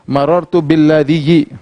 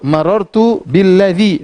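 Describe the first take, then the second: First: The last word ends with an added 'iyyi' sound. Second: The last word ends in a short 'i' sound. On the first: The speaker calls it wrong. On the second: The speaker calls it right. "Sama sukun"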